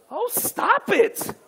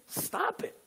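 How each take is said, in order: First: High, drawn-out "oh, stop it"; exaggerated "stop it". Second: High, soft "stop it"; demonstrated command. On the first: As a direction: stretch it out slowly and playfully high. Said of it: "Now say it like this". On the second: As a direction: say "stop it" high and lightly, without force. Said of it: "turn to your neighbor and say". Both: Shown as a demonstration.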